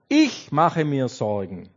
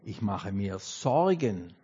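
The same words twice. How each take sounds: First: The stress is on the word ich. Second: The stress is on the word Sorgen.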